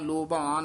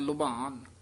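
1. ਪਹਿਲਾ ਸਰ ਪੂਰੇ o ਵਰਗਾ ਲੱਗਦਾ ਹੈ। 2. ਪਹਿਲਾ ਸਰ o ਅਤੇ u ਦੇ ਵਿਚਕਾਰ ਹੈ। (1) "ਨਾ ਕਹਿਣਾ ਲੋਭਾਨ" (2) "ਦਰਮਿਆਨਾ ਜਾ ਬੋਲ ਦੇਣਾ"

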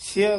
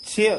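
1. ਮਾਤਰਾ ਛੋਟੀ ਇ ਹੈ। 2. ਮਾਤਰਾ ਛੋਟੀ ਇ ਹੈ।

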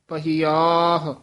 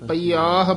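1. ਵਿਚਲਾ 'ਹ' ਦੀ ਆਵਾਜ਼ ਸਾਫ਼ ਉਚਾਰੀ ਜਾਂਦੀ ਹੈ। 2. ਵਿਚਲਾ 'ਹ' ਦੀ ਆਵਾਜ਼ ਛੱਡ ਦਿੱਤੀ ਜਾਂਦੀ ਹੈ। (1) "ਦੋਵੇਂ ਹਾਹੇ ਬੋਲਨੇ ਆ" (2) "ਕਈ ਪਾਠੀ ਸਿੰਘ ਪਈਆਹ ਬੋਲ ਜਾਂਦੇ ਆ"

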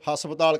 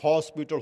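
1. ਇਹ ਸ਼ਬਦ ਪੰਜਾਬੀ ਢੰਗ ਵਿੱਚ ਢਲੇ ਰੂਪ ਵਿੱਚ ਕਿਹਾ ਜਾਂਦਾ ਹੈ। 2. ਇਹ ਸ਼ਬਦ ਅੰਗਰੇਜ਼ੀ ਵਰਗੇ ਰੂਪ ਵਿੱਚ ਕਿਹਾ ਜਾਂਦਾ ਹੈ। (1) "ਅਨਪੜ੍ਹ ਬੰਦੇ ਹਸਪਤਾਲ ਕਹਿੰਦੇ ਆ" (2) "ਜਿਹੜੇ ਪੜ੍ਹ ਗਏ ਉਹਨੂੰ ਕਹਿੰਦੇ ਬਾਪੂ ਹੌਸਪੀਟਲ ਹੁੰਦਾ"

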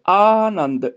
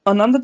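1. पहला स्वर लंबा है। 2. पहला स्वर छोटा है। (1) "ਐੜੇ ਨੂੰ ਕੰਨਾ ਪ੍ਰਨਾਉਂਸ ਹੋਏਗਾ" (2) "ਦੀ ਬਜਾਏ"

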